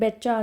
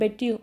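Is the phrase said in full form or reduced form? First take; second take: reduced; full. First: The words blend into one quick betcha. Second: Each word is pronounced separately and fully.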